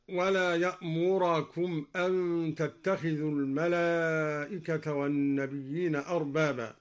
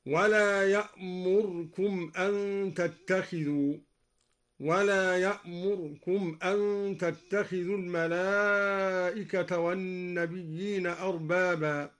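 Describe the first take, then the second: First: Said in the usual way. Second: يأمركم with the ra barely voiced, yamurkum; slurred ra. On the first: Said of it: "قرأ الدوري برفع الراء". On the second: Shown as a demonstration. Teacher demonstrating the snatched ra in يأمركم. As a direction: skim over the ra of يأمركم. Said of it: "مع ملاحظة اختلاس الراء ... هكذا".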